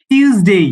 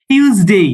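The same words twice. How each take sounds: No difference in how they are said.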